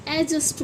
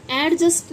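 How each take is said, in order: First: „एडजस्ट” as A-just; silent d. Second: „एडजस्ट” as AD-just; wrong, d sounded. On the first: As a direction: leave the d out of एडजस्ट. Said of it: "इसको एडजस्ट बोलते हैं". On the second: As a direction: say एडजस्ट with an audible d before j. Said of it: "एडजस्ट नहीं बोलते". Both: Shown as a demonstration.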